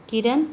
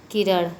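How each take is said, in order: First: First किरण with plain n, kiran; consonant contrast. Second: किरण ending in retroflex n; consonant contrast. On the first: Teacher contrasting consonants, plain-n किरण. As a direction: end किरण on a dental n. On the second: Teacher contrasting consonants, retroflex किरण. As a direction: curl the tongue back on the last sound of किरण. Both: Shown as a demonstration. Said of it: "ड़ और न में".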